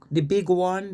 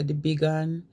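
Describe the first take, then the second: First: Said in the usual way. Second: "big one" run together as "big-an"; contracted dialect form. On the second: Shown as a demonstration. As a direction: shorten "one" to "an". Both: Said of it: "they say".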